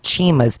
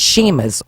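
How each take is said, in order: First: The name begins with a 'ch' sound. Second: The name begins with an 'sh' sound. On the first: The speaker calls it wrong. "it's not Chima's" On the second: The speaker calls it right. "it's Shima's, although it's spelled C H"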